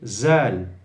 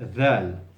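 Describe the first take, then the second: First: The first sound is a z, tongue behind teeth. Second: The first sound is th, tongue between teeth. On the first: The speaker calls it wrong. "they say zal with the tongue inside, and that is totally wrong" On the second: The speaker calls it right. "You have to say dal. You have to feel the tongue"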